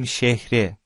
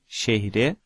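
First: The second-syllable vowel is dropped. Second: The second-syllable vowel is kept. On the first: "когда мы, например, говорим в город, мы говорим şehre" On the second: "здесь в слове şehire не происходит выпадение"

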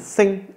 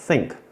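First: The final k sound is barely heard. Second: The final k sound is clearly pronounced. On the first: The speaker calls it right. "빨리 지나가면 think 이렇게 돼요. ... 크 발음이 크게 안 들려요" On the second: The speaker calls it wrong. "여러분 think가 아니에요"

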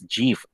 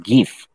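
First: It begins with a soft j-like sound. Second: It begins with a hard g sound. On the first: "But a lot of people pronounce this as GIF" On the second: "because graphic is GIF, so we pronounce this as GIF"

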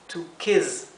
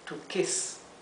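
First: The word ends with a buzzing z sound. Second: The word ends with a soft hissing s sound. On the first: "Si en cambio tuviéramos una S sola, se pronunciaría z" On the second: "como tenemos doble S, lo leemos to kiss"

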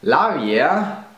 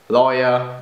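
First: It is pronounced as a German word. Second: It is pronounced as an English word.

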